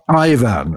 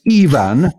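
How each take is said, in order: First: The first vowel sounds like 'eye'. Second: The first vowel sounds like 'ee'. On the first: The speaker calls it wrong. "not Ivan, as you said earlier" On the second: The speaker calls it right. "the I in Ivan is pronounced as E"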